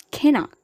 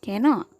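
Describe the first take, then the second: First: Cannot, long held nn, said higher; cannot with doubled n. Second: Said in the usual way. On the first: Shown as a demonstration. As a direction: hold the n in cannot longer. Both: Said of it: "geminates are also many a times articulated".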